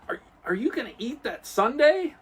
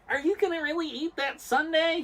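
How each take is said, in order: First: A weak Urkel impression, only slightly nasal. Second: A stronger Urkel impression with a strongly nasal voice.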